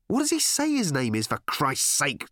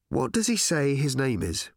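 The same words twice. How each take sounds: First: High-pitched, losing patience; exasperated, slowing on the final oath; exasperated question. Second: Said in the usual way. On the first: Acted. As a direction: ask it at the end of your patience. Exasperated questioning of clueless aliens.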